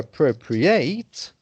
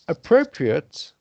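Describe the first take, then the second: First: It is pronounced as the verb form. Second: It is pronounced as the adjective form. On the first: "the verb to appropriate, but pronounced differently" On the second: "appropriate, the adjective"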